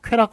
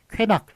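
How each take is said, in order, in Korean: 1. 둘째 음절은 r 소리로 시작합니다. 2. 둘째 음절은 n 소리로 시작합니다. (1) "그런데 수락, 쾌락, 허락할 때는" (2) "제대로 읽는 ... 쾌낙 ... 이런 식으로 하면 틀리다"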